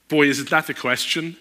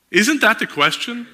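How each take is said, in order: First: Said in the usual way. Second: Isn't pushed up high and loud; stress on isn't. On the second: Shown as a demonstration. Preacher repeating to the crowd, Isn't rising loud. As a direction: lean hard on Isn't, rising.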